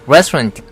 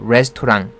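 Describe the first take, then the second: First: The stress falls on the first syllable. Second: The first syllable is not given the stress. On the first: The speaker calls it right. "스트레스는 앞에 있습니다. 레에 있는 거죠" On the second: The speaker calls it wrong. "이러면 안 되죠"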